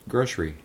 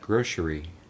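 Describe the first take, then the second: First: The word is said at normal speed. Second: The word is said slowly and drawn out.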